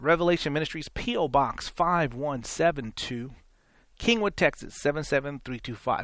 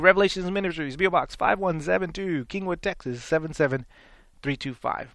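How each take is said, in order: First: The address is read slowly and carefully. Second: The address is read quickly and briskly. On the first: "was that slow enough? ... I said it slower just a minute ago" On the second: "you say your address too quick. And I do"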